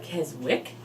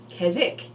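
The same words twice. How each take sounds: First: Keswick with the W sounded; W pronounced. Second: Keswick with the W dropped; silent W. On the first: Host showing viewers how some people say it, Keswick with a W. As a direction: say Keswick as "Kez-wick". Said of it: "Some people call it Keswick". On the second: Host showing viewers the other way to say it, Keswick without the W. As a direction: say Keswick as "Kezzick". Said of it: "and some people call it Keswick". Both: Shown as a demonstration.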